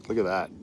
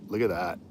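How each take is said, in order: The two takes are said the same way.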